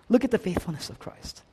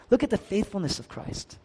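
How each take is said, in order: Both takes have the same delivery.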